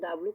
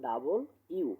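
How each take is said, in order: First: The middle is squeezed into a short 'dablu'. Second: It is said fully as 'double you'. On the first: The speaker calls it wrong. "তো বলে থাকে ডাব্লু" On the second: The speaker calls it right. "আসলে সঠিক উচ্চারণ"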